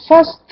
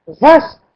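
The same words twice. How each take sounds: First: Faste said with an F, as the wrong word; the mistaken faste, F sound. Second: Vaste said with a clear V at the start; Vaste, stressing the V sound; correcting to Vaste with a V, a little louder. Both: Shown as a demonstration. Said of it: "Vaste avec V".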